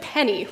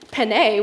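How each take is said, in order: First: The word sounds just like the coin. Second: The word does not sound like the coin. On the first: The speaker calls it wrong. "like the coin" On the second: The speaker calls it right. "which is correct"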